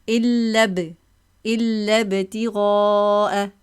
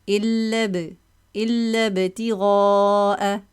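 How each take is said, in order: Both takes have the same delivery.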